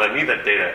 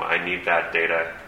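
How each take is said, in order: First: It is said in a friendly, excited tone. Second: It is said in a dour, flat tone.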